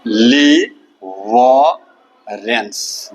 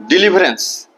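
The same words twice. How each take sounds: First: "डिलीवरेंस" very slowly, split डि, ली, व, रेंस; teacher stretching each syllable of "डिलीवरेंस"; syllable-by-syllable pronunciation. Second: Said in the usual way. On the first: Shown as a demonstration. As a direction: sound out "डिलीवरेंस" with long pauses between syllables. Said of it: "का उच्चारण होगा". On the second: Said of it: "उच्चारण है".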